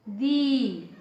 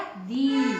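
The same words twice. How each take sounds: First: दी held with a long ee vowel; long dee. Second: दी with a long drawn ee vowel; long dee. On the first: Teacher contrasting short and long vowel, long ee. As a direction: draw out the ee of दी. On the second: Teacher showing pupils the long vowel, stretched ee. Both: Shown as a demonstration. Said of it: "इसका उच्चारण कैसा रहेगा".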